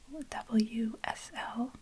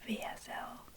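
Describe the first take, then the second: First: The first letter is named double-u, English style. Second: The first letter is named vee, German style.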